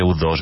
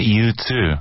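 First: The name is pronounced the Spanish way. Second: The name is pronounced the English way. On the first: The speaker calls it wrong. "no se dice U2" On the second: The speaker calls it right. "Se dice U2"

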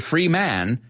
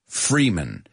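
First: The last syllable has a full 'man' vowel. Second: The last syllable is reduced, like 'min'. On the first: The speaker calls it wrong. "I didn't say Freeman" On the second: The speaker calls it right. "it's min at the end of his name"

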